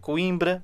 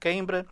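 First: The first syllable sounds like 'coim'. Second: The first syllable sounds like 'queim'. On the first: "bem dito" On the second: "ela escreve e depois tenta escrever este queimbra"

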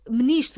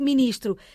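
First: The first syllable is said as 'me'. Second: The first syllable is said as 'mi'. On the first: It is the easier everyday form. "Dizemos ministro" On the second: It is the harder form that follows the spelling. "Mais fácil do que ministro"

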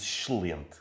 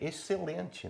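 First: It has a regional continental Portuguese pronunciation. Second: It has a Brazilian pronunciation, like the speaker's.

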